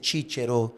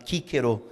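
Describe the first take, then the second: First: It is said with the modern Italian-like consonant sound. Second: It is said with the old classical consonant sound. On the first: This is the later church-style pronunciation. "que é hoje mais próximo do italiano" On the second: This is how the poet's name was said in his time. "que era chamado de Cícero, porque o C tinha esse som"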